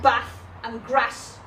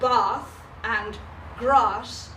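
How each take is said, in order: First: The words are said in a plain accent. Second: The words are said in a posh accent. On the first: The speaker is funny. The speaker calls it right. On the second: The speaker is not funny. The speaker calls it wrong.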